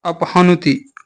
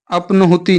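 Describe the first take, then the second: First: अपहनुति said apahnuti, h before n; correct cluster. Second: अपनुति said apnahuti, n before h; wrong cluster. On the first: Teacher correcting students, अपहनुति with h first. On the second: Teacher rejecting an error, अपनुति with n first. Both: Shown as a demonstration. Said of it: "नहीं".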